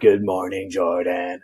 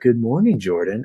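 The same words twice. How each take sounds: First: It is said in a creepy, terrifying voice. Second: It is said in a put-on British accent.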